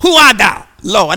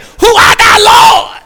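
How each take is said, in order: First: A touch louder questioning; mild awed question; Paul asking. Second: Very high, shouted plea; desperate cry. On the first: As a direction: ask in awe. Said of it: "And he said". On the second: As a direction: scream the question to heaven. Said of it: "but he said". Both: Acted.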